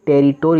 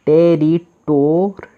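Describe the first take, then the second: First: Said in the usual way. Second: Teacher sounding out the word; slow blended syllables. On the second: Shown as a demonstration. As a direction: stretch every syllable. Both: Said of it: "तो आर का र".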